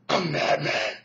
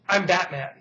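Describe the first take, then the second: First: It is said in a put-on, altered voice. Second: It is said in a plain, natural voice. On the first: The speaker calls it wrong. "that just sounds stupid" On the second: The speaker calls it right. "a regular guy who just goes"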